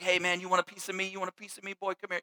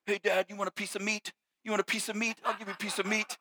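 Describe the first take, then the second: First: Lightly voiced teasing dad, fast and hushed; dad taunting his son to wrestle, mock-tough; playful wrestling taunt. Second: "meat" said in place of "me", softer; imitating a small boy, "piece of meat" with a clear final t; kid's misheard taunt. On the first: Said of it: "just kinda like that". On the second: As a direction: son mangling dad's wrestling taunt, mild kid voice. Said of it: "he came up to me one day and he was like".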